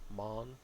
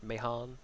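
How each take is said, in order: First: The name is said with one syllable. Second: The name is said with two syllables. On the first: The speaker calls it right. "just Mon" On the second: The speaker calls it wrong. "Not Mahan"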